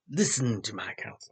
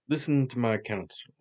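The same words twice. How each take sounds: First: It is said in a put-on villain voice. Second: It is said in an ordinary natural voice. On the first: "I started to do Jafar" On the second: "we'll just do a normal voice"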